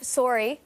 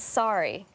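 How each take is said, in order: First: It is said with a Canadian accent. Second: It is said with an American accent.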